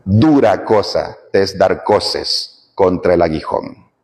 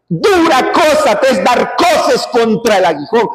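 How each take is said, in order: First: Grave, deliberate recitation of the verse; solemn repeat. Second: Said in the usual way. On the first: Shown as a demonstration. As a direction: let the verse sink in slowly.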